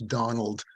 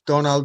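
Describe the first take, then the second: First: It is said in a plain English accent. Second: It is said with a foreign accent. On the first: "If you say it just in English" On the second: "if you say it with an accent"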